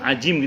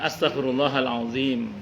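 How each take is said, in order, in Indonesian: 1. Kata terakhir diucapkan dengan bunyi 'j'. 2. Kata terakhir diucapkan dengan bunyi 'dz'. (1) "Kalau dia az, a, a, ajim, ajim gitu ya" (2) "Yang betul memang astagfirullahaladzim"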